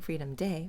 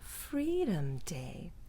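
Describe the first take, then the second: First: The stress falls on the word Day. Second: The stress falls on the word Freedom. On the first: The speaker calls it wrong. "We're not saying Freedom Day" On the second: The speaker calls it right. "we're saying Freedom Day ... Not stressing day, stressing the other word"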